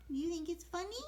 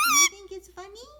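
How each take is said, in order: First: Said in the usual way. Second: Loud teasing question. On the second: Real, not acted.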